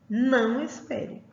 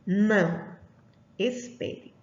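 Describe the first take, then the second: First: The words run together without a pause. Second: There is a pause after the first word. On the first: The listener is told not to wait. "E aqui que não espere" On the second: The listener is told to wait. "Aqui em cima está dizendo que espere"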